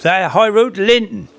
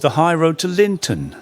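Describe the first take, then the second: First: Linton clipped to a Norfolk Lynn, said high; broad Norfolk yokel saying That High Road to Linton; Norfolk accent. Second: Said in the usual way. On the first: Retold or imitated. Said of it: "coming from Baconsthorpe". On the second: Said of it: "But Joe Skillings, coming from Baconsthorpe".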